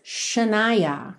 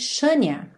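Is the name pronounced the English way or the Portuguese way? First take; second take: English; Portuguese. First: The name is said with English pronunciation. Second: The name is said with Portuguese pronunciation. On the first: "But in English, her name is Shania" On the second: "se você for ler em português, você diria provavelmente Shania"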